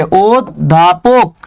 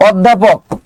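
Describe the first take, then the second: First: অধ্যাপক very slowly, split as "od-dhapok"; drawn-out teaching demo of অধ্যাপক, "od... dha-pok"; pronunciation broken down. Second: Said in the usual way. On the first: Shown as a demonstration. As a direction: stop after the first syllable of অধ্যাপক. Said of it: "কি হবে". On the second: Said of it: "অধ্যাপক কি হবে বলেন তো".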